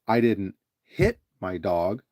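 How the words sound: The stress falls on the word hit. Something else was done to the dog. "So you emphasize the word "hit,""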